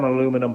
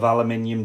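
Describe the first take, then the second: First: Aluminium is said with an American accent. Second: Aluminium is said with a British accent.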